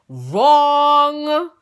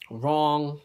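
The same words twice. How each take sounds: First: Wrong said high and loud with a rising, laughing tone; emphatic wrong. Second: Said in the usual way. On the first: Shown as a demonstration. Teller correcting herself to the audience, loud and high. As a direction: belt out Wrong as the punchline.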